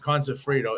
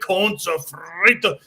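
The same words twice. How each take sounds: First: It is said plainly with little energy. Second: It is said with lively, showy energy. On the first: Nobody cares about it. The speaker calls it wrong. "if you just say" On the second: People will remember it. The speaker calls it right. "in an entertaining way"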